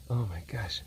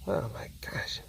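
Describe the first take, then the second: First: Said in the usual way. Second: Whispering. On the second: Real, not acted. Whispered repeat.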